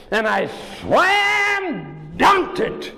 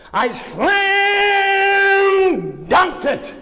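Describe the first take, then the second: First: Said in the usual way. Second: High, slow, exultant cry; triumphant shout. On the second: A narrator's reading. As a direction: shout out the big moment. Triumphant climax of story.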